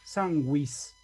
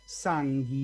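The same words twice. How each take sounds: First: The u after g is pronounced, like gw. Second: The u after g is silent, like plain g. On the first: The speaker calls it right. "el grupo G U se lee como si en español tuviera diéresis la U" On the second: The speaker calls it wrong. "ahí no voy a leer sanguis"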